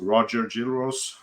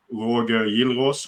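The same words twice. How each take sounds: First: Roger Gilros said the American way; American pronunciation. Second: Roger Gilros said slowly the Swedish way; Swedish pronunciation. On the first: Host gives the athlete's American name, Roger Gilros in American pronunciation. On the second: Host names a Swedish athlete, Roger Gilros in Swedish pronunciation. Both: Shown as a demonstration. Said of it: "as they say in America".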